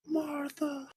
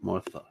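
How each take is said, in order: First: Much higher, softly savoured name; geeky Doctor Who moment. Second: Said in the usual way. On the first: Shown as a demonstration. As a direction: breathe the name like a fan quoting. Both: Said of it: "I was just having a geeky moment".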